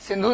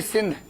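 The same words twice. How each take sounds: First: सिंधु said with the final u, as the wrong river; teacher voices सिंधु ending in a clear u, then rejects it; wrong name. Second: सिंध said short, ending on the d with no vowel after; teacher stresses सिंध as the right form, clipped at d; correct name. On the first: Teacher showing students the mistaken name सिंधु, ending on u. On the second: Teacher correcting students to सिंध, with no final vowel. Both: Shown as a demonstration. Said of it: "सिंधु नहीं, सिंध".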